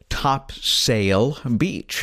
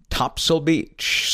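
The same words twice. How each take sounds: First: The second syllable has a full vowel. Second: The second syllable is very short and reduced. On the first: This is how an outsider reads it from the map. The speaker calls it wrong. "What most people see" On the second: This is how a local says it. The speaker calls it right. "you pronounce it Topsail Beach. So it's a very, very short S-A-I-L"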